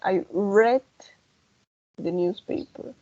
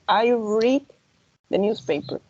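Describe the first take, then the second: First: The word read has a short e vowel. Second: The word read has a long ee vowel. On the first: It happened in the past. "en el pasado va a sonar red" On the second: It happens regularly now. "Si es presente"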